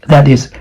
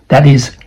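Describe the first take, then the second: Both takes have the same delivery.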